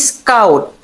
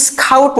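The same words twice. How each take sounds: First: স্কাউট with a plain k after s, falling; স্কাউট said the right way; correct unaspirated sk. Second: স্কাউট higher with an aspirated kh, the wrong way; স্কাউট said wrongly as skhaut; wrong aspirated scout. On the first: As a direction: say স্কাউট cleanly, no puff. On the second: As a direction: say স্কাউট with a breathy k to show the error. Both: Shown as a demonstration. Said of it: "না".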